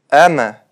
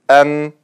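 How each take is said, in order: First: The final consonant ends with an added bouncing echo. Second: The final consonant is held steady without echo. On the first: The speaker calls it wrong. "они делают калькаля на буквах с сукуном" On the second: The speaker calls it right. "вместо"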